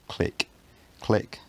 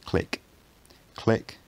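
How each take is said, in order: The two takes are said the same way.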